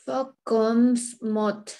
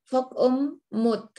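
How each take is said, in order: First: An s sound is pronounced in the first word. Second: No s sound is pronounced in the first word. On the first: The speaker calls it wrong. "S-nya tidak dibaca" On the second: The speaker calls it right. "aku nggak baca"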